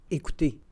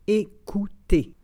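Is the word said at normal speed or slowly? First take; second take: normal; slow. First: It is said at normal conversational speed. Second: It is said slowly and carefully. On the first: "and then in communicational Canadian French" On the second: "then slowly said in French"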